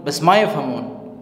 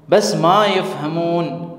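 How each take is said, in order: First: Said in the usual way. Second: Slow, careful Arabic model phrase. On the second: Shown as a demonstration. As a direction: spell it out slowly for the learner. (آہستہ، صاف عربی جملہ)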